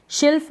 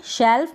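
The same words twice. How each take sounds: First: शिल्फ with a short i vowel; wrong pronunciation. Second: Said in the usual way. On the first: Shown as a demonstration. Teacher rejects a reading of shelf, mispronounced शिल्फ. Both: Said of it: "शिल्फ ना पढ़ें".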